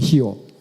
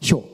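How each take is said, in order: First: It is broken into two separate syllables. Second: It is said as one smooth syllable. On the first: The speaker calls it wrong. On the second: The speaker calls it right.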